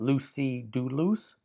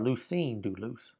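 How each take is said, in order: First: The first word ends in a vowel, no n. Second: The first word ends with an added n sound. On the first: "Either way is correct" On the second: "Either way is correct"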